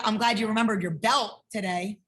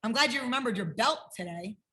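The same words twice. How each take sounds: First: "belt" stressed with a rising end; emphasize "belt" in "I'm glad you remembered your belt today". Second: "belt" stressed, tune rising at the end; emphasize "belt" in "I'm glad you remembered your belt today"; stress on belt again. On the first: Teacher stressing "belt" to hint at forgotten things. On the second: Teacher repeating the stressed "belt" take. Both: Shown as a demonstration. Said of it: "What does that one mean?".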